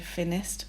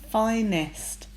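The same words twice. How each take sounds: First: The first vowel is a short i sound. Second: The first vowel is a long i sound. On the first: The speaker calls it wrong. "we don't say finest" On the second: The speaker calls it right. "we say finest because of that I sound"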